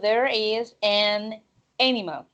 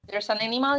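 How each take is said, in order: First: It is said slowly, with every word separate. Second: It is said quickly, with the words run together. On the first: The speaker calls it wrong. "You don't say, oh, there is an animal. No" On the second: The speaker calls it right. "you have to say it quickly"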